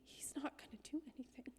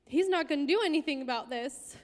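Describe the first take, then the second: First: Voiceless private realisation; whispered thought. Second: Pitched-up, emphatic repeat with more volume; bitter louder repeat. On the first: Realising the pastor will do nothing, a whispered inner thought. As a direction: say it under your breath, almost to yourself. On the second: Realising the pastor will do nothing, a louder emphatic repeat. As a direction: let the thought burst out louder. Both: Retold or imitated.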